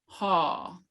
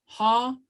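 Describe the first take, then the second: First: "haw" sliding down in pitch; falling tone. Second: "Haw" lifted high, going up; rising tone. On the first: Teacher showing the difference in pronunciation, falling tone. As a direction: bring "haw" down. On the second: Teacher showing the difference in pronunciation, rising tone. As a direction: raise the pitch through "Haw". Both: Shown as a demonstration. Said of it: "that's the difference in the pronunciation".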